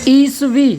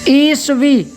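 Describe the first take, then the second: The two takes are said the same way.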